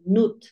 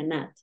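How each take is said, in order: First: "nut" with a Spanish u, "noot"; "nut" read by its spelling, with an oo vowel; nut as spelled. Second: "nut" with an ah-like vowel, "naht"; "nut" with the short vowel of "but"; correct nut. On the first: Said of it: "Al final se pronuncia nut". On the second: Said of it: "se pronuncia nut". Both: Shown as a demonstration.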